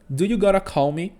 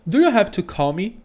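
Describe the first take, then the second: First: The words 'have to' are reduced to 'gotta'. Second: The words 'have to' are said in full. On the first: This form is much more common in everyday speech. "O gotta, ele é uma contração de have to" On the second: This form is less common in everyday speech. "isso aqui também significa do you have to call me"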